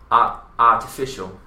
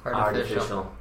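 First: The middle t is a crisp T sound. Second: The middle t is a soft D sound. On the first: "British English in that podcast. So just so you guys know, that in he would probably say artificial" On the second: "artificial has the D sound"

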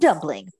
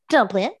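First: The word ends with an ng sound. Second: The word ends with a plain n sound. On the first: The speaker calls it wrong. "Not Dumpling" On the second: The speaker calls it right. "but Dumplin"

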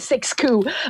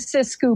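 First: The first syllable sounds like English 'six'. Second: The first syllable sounds like French 'six'. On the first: This is how many people say it. The speaker calls it wrong. "a lot of people say Siskiyou" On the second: This keeps a little French in the name. The speaker calls it right. "I pronounce it Siskiyou because I'm French and I can"

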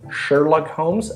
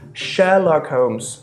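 First: The R is strong and the H is pronounced. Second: The R is dropped and the H is pronounced.

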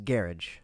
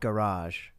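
First: It is said the Scottish way, anglicized. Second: It is said with standard French-like pronunciation. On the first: "As garage" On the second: "the word garage"

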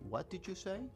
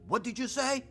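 First: It is said in a kind, polite tone. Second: It is said in an aggressive, confrontational tone.

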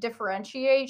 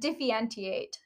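First: The word is pronounced in the standard way. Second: The word is pronounced in a garbled, distorted way. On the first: The speaker calls it right. "instead of saying differentiate" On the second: The speaker calls it wrong. "she said differentiate"

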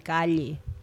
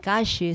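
First: It is said with a Peruvian accent. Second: It is said with an Argentine accent. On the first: "Nós, os peruanos, o Peru, em outros países, dizem calle" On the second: "os argentinos... eles dizem calle"

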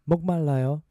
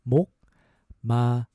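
First: It is said at a faster pace. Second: It is said slowly and carefully.

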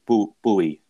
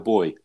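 First: The word is said the American way. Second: The word is said the British way, like boy. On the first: "for our American listeners. They pronounce that buoy" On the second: "But we call them a boy"

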